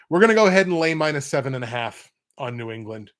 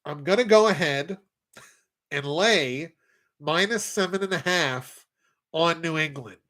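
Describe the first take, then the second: First: Said in the usual way. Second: Nasal voice with nose pinched shut; nose plugged. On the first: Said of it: "I wish that was a voice changer. It's not". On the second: Acted. Picking the Patriots against the spread, said holding his nose. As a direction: talk holding your nose closed. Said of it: "That's my actual nasally voice when I plug my nose".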